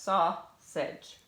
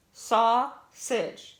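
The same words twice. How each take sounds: First: Said in the usual way. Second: Sausage drawn out as SAU-SAGE, the break between U and S; split into syllables. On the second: Shown as a demonstration. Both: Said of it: "between the U and the S".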